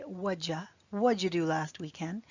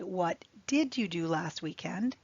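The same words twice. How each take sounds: First: "What'd you" run together as one quick whatcha; natural reduced speech. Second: "What did you do" with every word clear, did fully said; full careful form. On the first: Teacher to students, how natives say it, linked whatcha. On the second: Teacher to students, textbook form with did fully spoken. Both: Shown as a demonstration. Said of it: "Although we would say".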